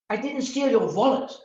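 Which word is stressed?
wallet. The stress is on "wallet".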